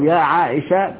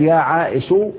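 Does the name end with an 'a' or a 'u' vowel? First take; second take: a; u. First: The name ends in a short 'a' vowel. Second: The name ends in a short 'u' vowel. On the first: The dropped last letter is still expected. "بفتح الشين" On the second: The dropped last letter is not expected back. "بضم الشين"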